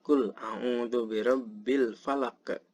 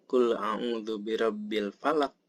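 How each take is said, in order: First: "falaq" released with an echoing q; slow verse, "falaq" ending as falaq-eh; with qalqalah. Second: "falaq" stopped dead on the q; verse ending in an unreleased q on "falaq"; without qalqalah. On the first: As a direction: bounce the final q of "falaq" into a short uh. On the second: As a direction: recite it with no echo after "falaq". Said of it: "Jadi bukan". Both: Shown as a demonstration.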